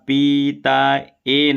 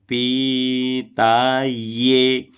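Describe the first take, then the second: First: The final syllable is a bare 'e' vowel. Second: The final syllable begins with a 'y' glide. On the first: The speaker calls it wrong. "अब यहाँ पीता ए नहीं बोलना है" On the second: The speaker calls it right. "ये बोलेंगे तो या में ए की मात्रा का उच्चारण होगा"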